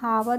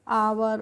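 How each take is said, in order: First: The word starts with an h sound. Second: The word starts with a vowel, no h. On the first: The speaker calls it wrong. "इसको हम हावर नहीं पढ़ते हैं" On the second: The speaker calls it right. "इसको हम पढ़ते हैं आवर"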